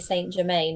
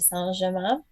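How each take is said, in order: First: It is said with an American pronunciation. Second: It is said with a French pronunciation. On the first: This is how people in New Orleans say it. "but I say Saint-Germain, which is what they say in New Orleans" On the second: This is how French speakers say it. "in French, I would say it's probably"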